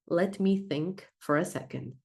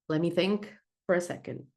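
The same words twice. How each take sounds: First: Each word is said slowly and separately. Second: The words are run together quickly. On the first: "eu falei cada palavra pausadamente" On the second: "como fazer isso com esse exemplo de frase aqui"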